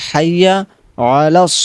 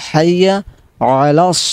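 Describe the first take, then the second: The two takes are said the same way.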